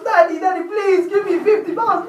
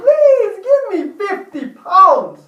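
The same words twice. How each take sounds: First: Put-on high, whiny little boy begging his dad; pleading child. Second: High, louder, slow whining plea; drawn-out child plea. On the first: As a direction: beg like a small kid tugging a leg. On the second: Acted. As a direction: stretch every word like a desperate kid. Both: Son pleading with dad for money.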